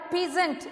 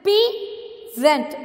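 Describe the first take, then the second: First: Said in the usual way. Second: "Peasant" split as pea, zent with a clear pause; "Peasant" divided slowly for learners; syllable by syllable. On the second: Shown as a demonstration. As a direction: stretch "Peasant" into two separate beats. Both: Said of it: "Only two syllable".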